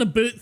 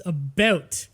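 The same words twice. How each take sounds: First: "a boot" with an oo vowel; quoted mispronunciation. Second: "about" with a rounded ou, no oo; corrected pronunciation. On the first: Retold or imitated. Player quotes friend's mishearing, exaggerated oo in "a boot". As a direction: say "a boot" to rhyme with shoot. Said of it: "You thought that I said a boot". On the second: Shown as a demonstration. Canadian corrects friend, saying "about" with a clear ou diphthong. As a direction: say "about" slowly as a diphthong, not "a boot". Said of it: "Is this an a boot thing?".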